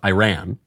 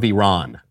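First: Iran is pronounced the American way. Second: Iran is pronounced in a non-American way. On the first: The speaker calls it right. "I should pronounce it Iran" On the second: The speaker calls it wrong. "I did it again. I'm an American. I should pronounce it Iran. Obama is in my head"

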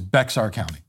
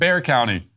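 First: The name is said with a ks sound. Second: The name sounds like the word bear. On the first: The speaker calls it right. "It is Bexar County" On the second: The speaker calls it wrong. "it's pronounced Bear County"

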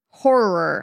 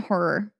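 First: The word is said with careful, exaggerated articulation. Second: The word is said casually, without extra care.

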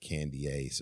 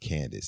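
First: The name is said with a middle 'ee' sound. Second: The name is said without the middle 'ee' sound. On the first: The speaker calls it wrong. "not Candiace or whatever" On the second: The speaker calls it right. "But you pronounce it Candace"

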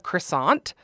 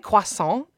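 First: A plain, everyday pronunciation of the word. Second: A fancy, foreign-sounding pronunciation of the word. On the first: "instead of" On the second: "Anybody who goes out of their way to pronounce something"

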